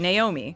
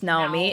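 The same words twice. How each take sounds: First: The name is said the common English way. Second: The name is said the Japanese way. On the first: "that's a name that people would say Naomi" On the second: "in Japan, it would be pronounced Naomi"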